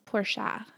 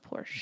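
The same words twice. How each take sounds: First: The final vowel is pronounced. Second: The final vowel is silent. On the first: The speaker calls it right. "It's a Porsche" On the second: The speaker calls it wrong. "But people call it a Porsche"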